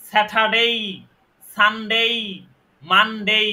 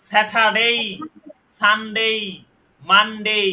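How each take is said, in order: The two takes are said the same way.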